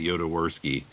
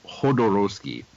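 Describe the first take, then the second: First: The name is said in a German way. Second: The name is said in a Spanish way. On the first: "a German would pronounce it Jodorowsky" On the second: "I've heard it's pronounced Ho- Hodorowski"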